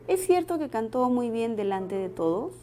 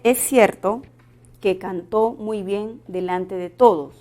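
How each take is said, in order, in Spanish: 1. El tono sube al final de la oración. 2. El tono baja al final de la oración. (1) "podríamos cambiarlo a una pregunta" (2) "El tono final de la oración es descendente"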